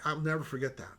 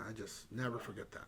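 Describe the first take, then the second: First: Said in the usual way. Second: Much softer repeat, trailing off; hushed echo of the memory; quiet afterthought. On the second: Real, not acted. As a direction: say it again almost to himself.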